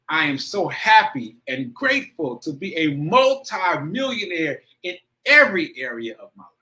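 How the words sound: It is said with strong emotion.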